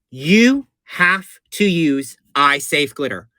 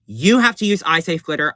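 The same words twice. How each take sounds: First: You have to use eye safe glitter, every word slow and weighted; slow emphatic warning. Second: Said in the usual way. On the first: Shown as a demonstration. Telling viewers the key tip, slow and emphatic. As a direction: spell out the rule slowly so it sticks. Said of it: "This is the most important tip". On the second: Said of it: "I'm gonna repeat it again".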